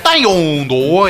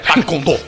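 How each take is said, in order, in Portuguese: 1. É pronunciada em um estilo chinês simulado. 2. É pronunciada em um estilo japonês simulado. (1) "se fosse chinês, seria Taekwondo" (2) "No Japão, todas as sílabas você tem que dar uma tacada nela"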